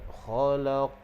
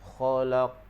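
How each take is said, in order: First: The final q is released with a bounce. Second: The final q is stopped flat without bounce. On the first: The speaker calls it right. "Gitu, bagi dia lantun" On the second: The speaker calls it wrong. "Dia tak bunyi lantunan. Itu kesalahan yang berlaku"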